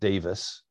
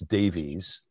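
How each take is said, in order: First: The name ends in a short 'iss' sound. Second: The name ends in a long 'eez' sound. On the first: This is how the Welsh pronounce it. The speaker calls it right. "he's Welsh. They pronounce it Davis" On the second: This is the assumed reading of the spelling. The speaker calls it wrong. "we would look at his name and we would think it's Davies"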